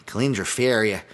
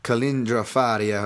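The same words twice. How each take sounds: First: Lightly voiced Chicago tough guy, name said "Fairia"; Dennis Farina. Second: Said in the usual way. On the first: Podcaster jokingly says a fighter's name like a film actor, lightly mimicked Chicago voice. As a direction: say "Kalindra Faria" like a Chicago movie guy, "Fairia". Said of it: "I always wanna say Kalindra Faria like".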